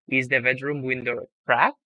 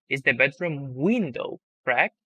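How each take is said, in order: First: The word cracked carries the strongest stress. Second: The word window carries the strongest stress. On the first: The question is about what is wrong with the window. "I'm changing my tone and stress when saying it" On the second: The question is about which object in the room. "I'm changing my tone and stress when saying it"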